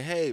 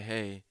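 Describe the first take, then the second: First: Higher, excited mom's hello; excited greeting. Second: Subdued, softer hello; troubled greeting. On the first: Mom spotting her son across the street, higher, excited. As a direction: call it out brightly, as a pleased mom. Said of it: "My mom's mad excited". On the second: Upset son answering his mom across the street, subdued. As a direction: answer softly, with something clearly wrong. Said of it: "sensed there was something wrong with me". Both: Retold or imitated.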